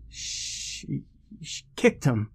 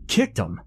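First: Faint false start, then higher; nervous stammer. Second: Incredulous echo. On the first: A narrator's reading. Shaken friend explains the accident to newcomer, stammering. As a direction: stammer it out weakly, voice pitched up. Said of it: "Peter stammered". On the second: Acted. Newcomer questions the stammering friend, incredulous. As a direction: throw the words back in disbelief. Keaton echoes Peter in disbelief.

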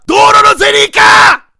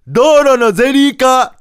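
First: 道路のゼリー化！ bellowed much higher and louder; an all-out proclamation of 道路のゼリー化！; full shout. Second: 道路のゼリー化 proclaimed higher, louder and slow; a slow, raised announcement of 道路のゼリー化; announcing. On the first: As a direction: yell 道路のゼリー化！ with all your force. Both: Retold or imitated. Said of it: "案を発表しだした".

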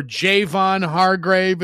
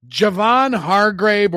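First: Javon said JAY-von, long "ay" in the first syllable; alternative pronunciation. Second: Javon said juh-VON, short unstressed first syllable; first pronunciation. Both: Shown as a demonstration. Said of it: "as I've heard it pronounced as well".

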